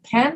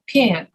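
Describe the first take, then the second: First: It is said with a Northern US accent. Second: It is said with a Southern US drawl. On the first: "they don't pronounce it pen" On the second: "the Southern accent is like a drawl, ... they pronounce it pen"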